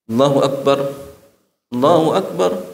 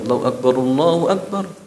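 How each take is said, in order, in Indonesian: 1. Setiap frasa diucapkan dengan tarikan napasnya sendiri, dengan jeda di antaranya. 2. Kedua frasa diucapkan berurutan dalam satu tarikan napas. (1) "setiap takbir satu kali"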